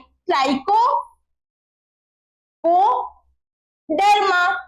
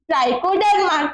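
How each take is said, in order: First: The word is split into parts with pauses. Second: The word is said smoothly without any pause.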